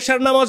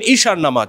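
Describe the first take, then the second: First: The first vowel sounds like 'e'. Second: The first vowel sounds like 'ee'. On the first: The speaker calls it wrong. "আপনি এশার নামাজ বলবেন কেন?" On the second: The speaker calls it right. "আপনি বলবেন ঈশার নামাজ।"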